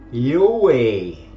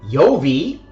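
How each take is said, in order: First: It starts with a Y sound and has no v. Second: It starts with a Y sound and keeps a v. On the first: The speaker calls it right. "It is actually Yoe" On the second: The speaker calls it wrong. "It is not Yovi"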